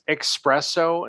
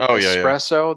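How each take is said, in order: First: The word begins with an 'ex' sound. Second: The word begins with an 'es' sound. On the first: The speaker calls it wrong. "if somebody says espresso instead of" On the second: The speaker calls it right. "instead of espresso"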